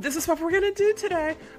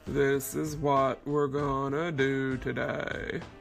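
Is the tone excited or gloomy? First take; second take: excited; gloomy. First: It is said in an excited, upbeat tone. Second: It is said in a gloomy, Eeyore-like tone.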